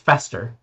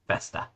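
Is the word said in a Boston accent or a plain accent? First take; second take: plain; Boston. First: It is said in a plain, non-Boston accent. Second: It is said in a Boston accent.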